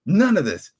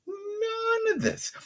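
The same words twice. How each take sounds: First: Firm, loud dismissal; emphatic. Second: Very slow, much higher, softer disbelieving wail; exasperated drawn out. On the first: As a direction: slam the words down. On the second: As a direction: stretch it out in weary disbelief. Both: Real, not acted. Ranting repeats his complaint.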